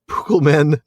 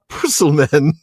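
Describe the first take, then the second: First: The middle consonant is a hard K sound. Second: The middle consonant is a soft S sound. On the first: The speaker calls it right. "Tolkien apparently wanted to make sure his readers pronounced it" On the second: The speaker calls it wrong. "C is typically soft, pronounced like the S"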